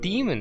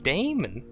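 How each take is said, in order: First: The first syllable sounds like 'dee'. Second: The first syllable sounds like 'day'. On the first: The speaker calls it wrong. "It's not demon" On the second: The speaker calls it right. "it's Damon"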